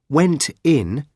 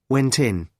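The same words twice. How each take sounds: First: The two words are said separately. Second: The two words run together like one word.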